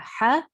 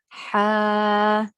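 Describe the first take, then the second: First: The vowel is short, not stretched. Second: The vowel is long, stretched out. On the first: "ha fatha" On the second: "ha standing fatha"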